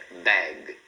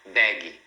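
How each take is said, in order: First: BAG low, stopping on the G; correct pronunciation. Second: BAG with an added "ee", "baggy"; wrong learner pronunciation. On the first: Teacher corrects the mistake, correct pronunciation. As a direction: say "bag" with no vowel after G. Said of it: "Para no G". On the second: Teacher shows what to avoid, wrong pronunciation. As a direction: say "bag" as two syllables, ba-ghee. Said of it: "procura não falar". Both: Shown as a demonstration.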